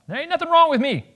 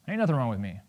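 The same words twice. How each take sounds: First: High-pitched, indignant denial; over-the-top touchy protest; defensive outburst. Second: Low, quiet brush-off; understated, low-voiced denial; dismissive denial. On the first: Acted. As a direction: burst out defensively, voice jumping way up. Same denial, now defensive outburst. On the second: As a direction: wave the question away softly. First denial to the therapist.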